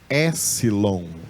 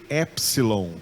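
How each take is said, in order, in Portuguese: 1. O som de p é omitido. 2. O som de p é claramente pronunciado. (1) "lá na Grécia eles não usam essa pronúncia" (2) "A gente em português usa a, a pronúncia do P"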